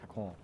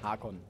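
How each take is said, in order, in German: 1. Der Name wird mit einer französisch klingenden Aussprache gesagt. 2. Der Name wird schlicht ausgesprochen, ohne französische Note. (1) "Es ist kein Franzose" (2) "Hakon, nicht Hakon"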